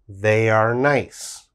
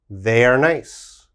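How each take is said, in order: First: It is said slowly. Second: It is said fast.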